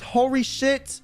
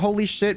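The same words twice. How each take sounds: First: The l sound is blurred toward an r. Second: The l sound is a clear English l. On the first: This is how a Japanese speaker says it. "she says" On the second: This is the intended English phrase. "her way of saying holy shit"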